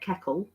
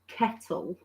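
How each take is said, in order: First: The middle consonant sounds like a k. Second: The middle consonant is a clear t sound. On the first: "I say keckle" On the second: "I don't say kettle"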